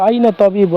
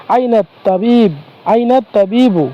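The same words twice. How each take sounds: First: Said in the usual way. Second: Slow teacher model of আইনা তাবিবু; slow careful demo. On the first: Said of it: "আমরা এটা এভাবে বলতে পারি". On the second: Shown as a demonstration. Teacher slowly models আইনা তাবিবু for students, careful and drawn out. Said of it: "এটা যদি বলতে হয় তাহলে আমরা বলতে পারি".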